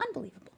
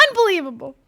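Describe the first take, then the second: First: Muttered softly in disbelief; under breath. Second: Said in the usual way. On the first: Real, not acted. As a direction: say it to yourself. Can't find the hider.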